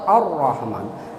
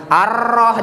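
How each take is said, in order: First: Slow "Ar-Rahman" with a heavy ro; thick R. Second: "ar-roh" with a long rolled R; over-trilled R. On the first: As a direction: round the R of "Ar-Rahman" without a long trill. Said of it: "harus dibacanya tebal". ("Ar-Rahman" dengan ro tebal) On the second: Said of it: "jangan gitu". ("ar-roh" dengan r terlalu bergetar) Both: Shown as a demonstration.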